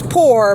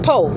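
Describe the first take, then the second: First: The word ends with a clear r sound. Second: The word ends without any r sound.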